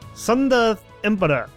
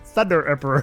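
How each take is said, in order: First: The first word begins with an s sound. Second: The first word begins with a th sound. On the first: "I swear I heard like a S sound in there" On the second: "The name's Thunder Emperor"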